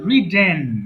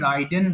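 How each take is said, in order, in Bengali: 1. প্রথম স্বরধ্বনিটি ছোট, 'bit'-এর মতো। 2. প্রথম স্বরধ্বনিটি 'eye'-এর মতো শোনায়। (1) "বাংলা লিখে দিয়েছি রিডেন" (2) "এটা অনেকে ভুল করে রাইডেন বলে"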